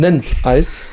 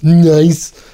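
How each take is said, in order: First: A short vowel comes before the n. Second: The n is said bare, with no vowel. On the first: The speaker calls it right. "man gibt dem N einfach einen Vokal" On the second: The speaker calls it wrong. "dass man nicht N Eis sagt"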